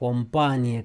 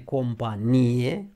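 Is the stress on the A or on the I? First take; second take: A; I. First: The stress falls on the A syllable. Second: The stress falls on the I syllable. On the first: A military unit. "cu accentul pe A" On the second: Keeping someone company. "cu accentul pe I"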